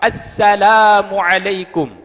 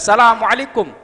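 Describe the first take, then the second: First: The definite article sound before salam is heard. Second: The definite article sound before salam is missing. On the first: The greeting is definite. The speaker calls it right. "tapi isim ma'rifah" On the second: The greeting becomes indefinite. The speaker calls it wrong. "Bukan assalamualaikum, tapi kalau assalamualaikum jadi nakirah"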